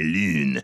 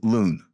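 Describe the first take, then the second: First: The word is said with a French accent. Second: The word is said with an English accent. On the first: The speaker calls it right. "the French teacher says, no, c'est lune" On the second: The speaker calls it wrong. "what we want to say is lune"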